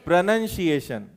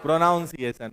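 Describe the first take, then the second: First: प्रोनंसिएशन said correctly, short with a plain nə in the middle; correct pronunciation. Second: प्रोनाउंसिएशन said with "naun" like pronounce; common wrong pronunciation. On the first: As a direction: say प्रोनंसिएशन the proper English way, no "aun". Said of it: "उच्चारण को English में क्या बोलते हैं?". (प्रोनंसिएशन का सही उच्चारण, बीच में "नं") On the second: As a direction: imitate the common mistake, प्रोनाउंसिएशन with the extra "aun". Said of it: "और हम क्या बोलते हैं?". (आम गलत उच्चारण, प्रोनाउंसिएशन में "नाउं" के साथ) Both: Shown as a demonstration.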